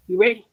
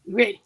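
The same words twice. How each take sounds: First: You ready called out louder, rising. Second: Said in the usual way. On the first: Shown as a demonstration. Author to listeners, calling out louder.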